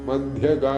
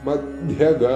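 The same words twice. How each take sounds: No difference in how they are said.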